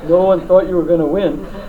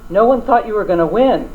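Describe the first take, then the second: First: It is said in a deep, slow voice. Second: It is said in an ordinary voice and pace.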